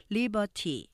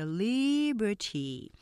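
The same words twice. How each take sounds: First: "liberty" quick and even, no accented syllable; "liberty" without leaning on the first syllable; unaccented Konglish. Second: "liberty" with a long, strong LI; "liberty" strong first, weaker on ber-ty; stress on first syllable. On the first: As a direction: say "liberty" staccato, three equal beats. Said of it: "여기에 액센트가 없으면은". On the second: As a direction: stretch the front of "liberty" very slowly, then ease off. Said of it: "앞에 액센트 강조하시면서". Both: Shown as a demonstration.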